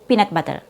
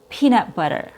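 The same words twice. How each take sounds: First: The E vowel is short and the T crisp. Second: The E vowel is long and the T flapped. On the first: The speaker calls it wrong. "If you shorten your long E sound" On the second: The speaker calls it right. "Instead of"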